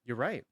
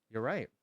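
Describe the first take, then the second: No difference in how they are said.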